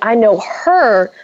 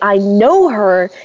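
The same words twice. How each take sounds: First: The stress is on the word 'her'. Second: The stress is on the word 'know'. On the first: It is her, not someone else, that I know. "So you're emphasizing the her" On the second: I do know her, as opposed to not knowing her. "you emphasize the no"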